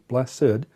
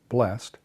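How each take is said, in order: First: The word is said with two syllables. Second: The word is said with one syllable. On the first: The word is used as an adjective. "we tend to use the two-syllable pronunciation" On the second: The word is used as a verb. "We tend to use the one-syllable pronunciation"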